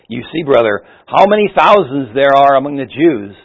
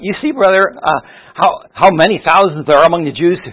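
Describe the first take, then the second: First: It is said in a grave, serious tone. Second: It is said in a friendly, joking tone. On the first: The remark is a weighty concern. "a very serious tone of voice" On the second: The remark is lighthearted banter. "a very friendly tone of voice, almost kind of a joking tone of voice"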